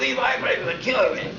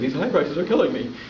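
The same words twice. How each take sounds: First: It is said with forceful, heightened intensity. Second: It is said in a plain, calm way. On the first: The speaker calls it right. "You have to actually go like" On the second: The speaker calls it wrong. "you don't just say"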